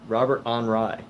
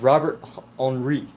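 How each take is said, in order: First: Henri is said the English way, like 'on rye'. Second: Henri is said the French way, like 'on-ree'. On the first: "Is it Robert on Rye?" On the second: "that's how they pronounce it in French"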